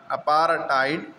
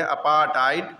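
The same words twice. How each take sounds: First: अपार्थाइड with an R, apaar-taid; अपार्थाइड drawn out, R before hard T; R sounded. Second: अपार्थाइड without the R, apaa-tait; अपार्थाइड with long aa straight into hard T; R dropped. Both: Shown as a demonstration. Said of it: "ये अपार्थाइड word है".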